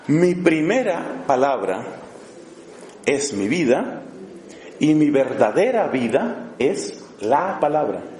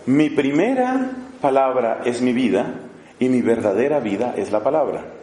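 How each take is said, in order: First: It is said slowly and deliberately. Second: It is said at a normal speed.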